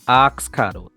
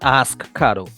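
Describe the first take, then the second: First: The first word sounds like 'arks'. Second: The first word sounds like standard 'ask'. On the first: The speaker calls it right. "A R K S" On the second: The speaker calls it wrong. "Not ask Cado"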